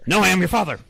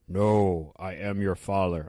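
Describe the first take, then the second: First: It is said at a fast pace. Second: It is said at a slow pace.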